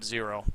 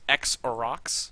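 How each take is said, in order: First: The name is said as two syllables, zero. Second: The name is said as three syllables, ex-oh-rocks. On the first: The speaker calls it wrong. "when we pronounced it zero" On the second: The speaker calls it right. "It's X Orox"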